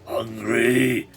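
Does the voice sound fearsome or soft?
fearsome. It is said in a harsh, fearsome voice.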